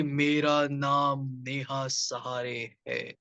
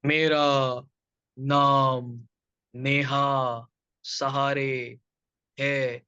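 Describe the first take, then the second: First: मेरा नाम नेहा सहारे है joined up, slow and low; low ghostly tone, मेरा नाम नेहा सहारे है without breaks; one fluent sentence. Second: मेरा, नाम, नेहा, सहारे, है each drawn out with pauses between; low, very slow ghostly मेरा ... नाम ... Neha, every word separated; broken word-by-word. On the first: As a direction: carry मेरा through to है in one unbroken, drawn-out line. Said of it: "उसको एक sentence में लेके आते". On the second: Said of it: "हर एक शब्द को तोड़ रहे थे आप". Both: Shown as a demonstration.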